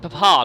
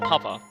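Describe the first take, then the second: First: It is said in a British-sounding way. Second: It is said in a plain, unaccented way. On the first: "she pronounced it Papa, That's almost a British way of doing it" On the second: "not Papa"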